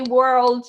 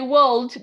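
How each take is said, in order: First: It is said in a non-British accent. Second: It is said in a British accent. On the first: "world is better because it fits mo- most accents" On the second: "that's that's very British"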